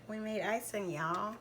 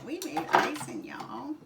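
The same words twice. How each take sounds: First: Said in the usual way. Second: Put-on country accent. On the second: To viewers, proud of the icing, in a playful country accent. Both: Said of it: "Got my little country accent".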